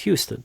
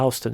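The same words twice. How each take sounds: First: It is said the Texas way. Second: It is said the New York City way. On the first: It names the largest city in Texas. "if you're in Texas" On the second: It names the street in New York City. "if you're in New York City, it's a regional dialect"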